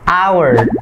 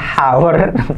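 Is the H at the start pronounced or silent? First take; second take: silent; pronounced. First: The H at the start is silent. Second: The H at the start is pronounced. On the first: The speaker calls it right. "Jadi cukup bacanya hour" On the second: The speaker calls it wrong. "bukan hour"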